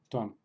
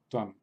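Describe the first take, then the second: The two takes are said the same way.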